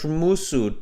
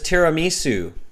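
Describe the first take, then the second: First: The word is garbled with syllables run together. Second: The word is said clearly with every syllable. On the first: The speaker calls it wrong. "maybe you can't pronounce it. Maybe you're like" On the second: The speaker calls it right. "your favorite dessert is tiramisu"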